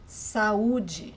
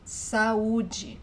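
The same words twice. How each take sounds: First: Saúde said as sa-OO-jee, stress on the second syllable; Portuguese pronunciation. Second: Saúde again as sa-OO-jee, clear and even; Portuguese pronunciation repeated. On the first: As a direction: say Saúde slowly and clearly. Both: Shown as a demonstration. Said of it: "So let me pronounce that again".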